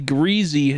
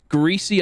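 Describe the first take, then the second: First: It is said with a southern regional pronunciation. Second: It is said with a northern regional pronunciation. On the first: The speaker comes from the southern region. "will say greasy down here" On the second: The speaker comes from the northern region. "a person will say greasy up here"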